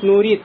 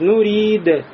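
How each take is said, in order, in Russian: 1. Конечный звук — ровный t. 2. Конечный d звучит коротко, с лёгким отзвуком. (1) "будет нурид, как будто буква те" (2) "будете вот так говорить"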